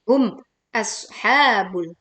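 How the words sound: The two words are split by a break. The speaker calls it wrong.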